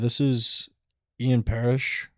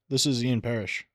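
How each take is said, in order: First: The voice rises at the end. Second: The voice falls at the end. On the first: The speaker sounds unsure, like asking a question. The speaker calls it wrong. "He's talking in uptones, not downtones" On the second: The speaker sounds confident and assumptive. The speaker calls it right. "you end with a downtone. You're gonna sound much more confident"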